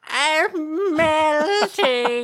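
A witch voice, noticeably shriller.

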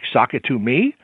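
The voice rises at the end, like a question.

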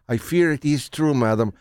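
It is said in a put-on Spanish accent.

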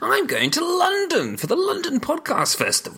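The voice sounds upbeat and happy. The speaker calls it right. "Sound happy about it. That's better"

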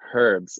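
The word begins with an audible h sound. The speaker calls it right.

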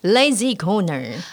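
It is said in a serious tone.

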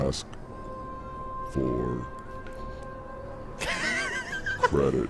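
It is said slowly in an annoyed tone. "Annoyed. ... slow it down for you"

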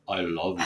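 It is said in a deep voice.

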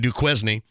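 The name is said the southern Indiana way.

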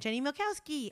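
It ends with a falling exclamation.

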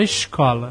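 It is said with a Rio accent.

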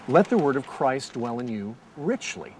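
The word richly carries the main stress. The word should live in you deeply, not poorly. "Or then I could read it, ... Richly as opposed to poorly"

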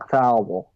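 The name is slurred as if the tongue were numb.

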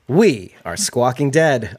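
It is said in a moderately cheerful manner.

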